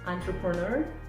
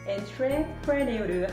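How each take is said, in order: First: It is said with its usual English pronunciation. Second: It is said letter by letter, as spelled.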